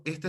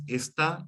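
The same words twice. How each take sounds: First: "esta" with the stress on its first syllable; esta, unaccented. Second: "está" stressed on the last syllable, the A; stress on final A. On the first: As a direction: say "esta" as ES-ta, not es-TA. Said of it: "sin acento". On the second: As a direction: hit the A at the end of "está". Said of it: "con acento en la A". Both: Shown as a demonstration.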